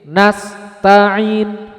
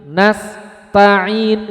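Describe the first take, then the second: The two takes are said the same way.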